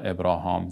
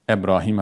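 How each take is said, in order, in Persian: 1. آخرین مصوت این اسم 'ah' است. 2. آخرین مصوت این اسم 'ee' است. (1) "یا به تلفظ شما ابراهام" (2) "ابراهیم علیه السلام"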